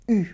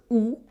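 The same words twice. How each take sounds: First: "U" as a front rounded vowel, "ee" through pursed lips; French U. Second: "U" said as a back "oo" vowel; wrong U, as "oo". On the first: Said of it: "it's U". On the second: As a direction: say "U" like English "oo". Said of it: "It's not the U". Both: Shown as a demonstration.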